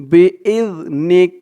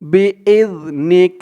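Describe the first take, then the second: No difference in how they are said.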